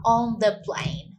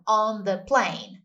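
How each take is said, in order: First: Slow "On the plane"; slow teacher model. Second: Slow "On the plane"; slow repeat for learners; slow model. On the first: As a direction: say "On the plane" slowly and clearly. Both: Shown as a demonstration.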